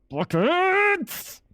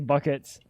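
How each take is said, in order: First: It is said loudly, with high energy. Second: It is said flatly, without energy.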